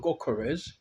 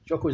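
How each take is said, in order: First: The name begins with a hard G sound. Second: The name begins with a J sound. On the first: "It's a G. So it's either Gokores" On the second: "Jokores is like a J"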